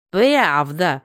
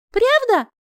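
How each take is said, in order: First: Mocking laugh. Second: High, surprised tipsy squeak; drunk hiccup question. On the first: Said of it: "заржал Ди Каприо". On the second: Acted. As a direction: hiccup it out, much higher. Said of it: "пьяно икнула я".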